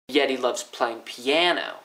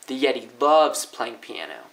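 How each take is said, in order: First: The stress is on piano. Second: The stress is on loves.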